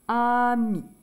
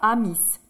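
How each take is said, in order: First: The final S is not pronounced. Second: The final S is pronounced aloud. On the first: The speaker calls it right. "le S, on ne dit pas" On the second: The speaker calls it wrong. "on ne dit pas amis"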